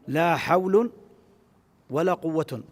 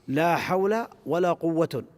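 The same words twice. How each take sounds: First: Both nouns end with an -un sound. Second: Only the second noun ends with -un. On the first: The particle governs neither noun. "بالإهمال في الأمرين" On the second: The particle governs only the first noun. "بعمل الأول وإهمال الثاني"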